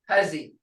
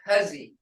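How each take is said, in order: The two takes are said the same way.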